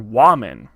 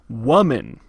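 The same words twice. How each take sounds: First: The first vowel sounds like the o in top. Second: The first vowel sounds like a short u. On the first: The speaker calls it wrong. "an A sound like in top" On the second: The speaker calls it right. "it's more like woman, like with a U"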